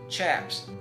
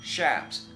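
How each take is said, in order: First: The word begins with a hard 'ch' sound. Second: The word begins with a soft 'sh' sound. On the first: "for 40 years I've been calling it chaps" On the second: "it's really difficult to pronounce this word, shaps"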